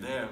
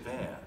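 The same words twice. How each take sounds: First: The word begins with a th sound. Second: The word begins with an f sound. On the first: "instead of saying there" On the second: "in London, they turn it into an F"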